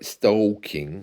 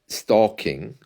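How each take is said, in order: First: The vowel leans toward an 'oh' sound. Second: The vowel is a plain 'aw' sound.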